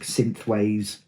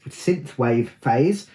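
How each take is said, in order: First: Said in the usual way. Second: Slow careful synthwave. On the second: Real, not acted. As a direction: spell out synthwave slowly. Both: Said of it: "That's hard to say".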